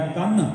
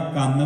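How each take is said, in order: First: ਕੰਨ said as the word for shoulder, with a weighted final n; ਕੰਨ with the subscript mark sounded at the end; halant pronunciation. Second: ਕੰਨ said like the word for ear; ਕੰਨ with a simple n ending; ordinary reading. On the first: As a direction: lean on the closing n of ਕੰਨ. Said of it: "ਉਹਦੇ ਨਾਲ ਉਚਾਰਨ ਬਣ ਜਾਏਗਾ". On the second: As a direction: say ਕੰਨ as plain kann, one syllable. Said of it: "ਜੇ ਆਪਾਂ ਕੰਨ ਪੜਾਂਗੇ ਇਹਨੂੰ". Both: Shown as a demonstration.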